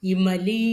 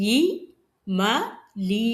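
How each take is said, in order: First: இமலி in one piece with a long final லீ; இமலி unbroken, ending on a drawn "lee"; joined-up word. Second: இ, ம, லீ each alone with pauses; syllable by syllable. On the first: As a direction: blend இமலி smoothly, stretching the last vowel. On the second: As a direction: break it into இ, ம, then a long லீ. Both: Shown as a demonstration. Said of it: "உச்சரிக்கும்ப பாருங்க".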